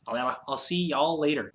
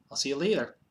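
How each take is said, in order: First: Slower, drawn-out "y'all" in a mock Southern lilt; mock Southern drawl on "y'all". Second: Said in the usual way. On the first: Shown as a demonstration. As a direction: stretch "y'all" like a playful Southern goodbye. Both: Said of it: "I can't talk".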